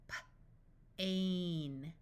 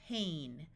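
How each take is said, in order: First: Puffed P, pause, then "ain"; sounded out. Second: Said in the usual way. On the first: Shown as a demonstration. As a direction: break "P-, ain" into separate sounds. Phonics teacher sounds out, then blends.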